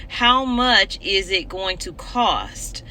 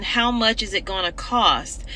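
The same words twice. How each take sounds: First: Slow, deliberate. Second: Said in the usual way. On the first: Real, not acted. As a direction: slowly spell out "How much is it going to cost?". Repeats question slowly for emphasis.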